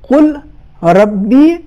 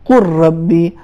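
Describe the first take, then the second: First: The l sound is pronounced before the r. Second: The l is dropped and the r is doubled.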